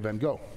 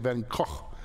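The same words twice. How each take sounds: First: The name has an American English pronunciation. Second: The name has a Dutch pronunciation. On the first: The speaker calls it wrong. "we're Americans, we butcher everyone's name, so we're gonna say van Gogh" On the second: The speaker calls it right. "you say van Gogh"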